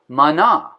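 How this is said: It is said with a Hebrew pronunciation. "In Hebrew, the way they asked that question was to say manna"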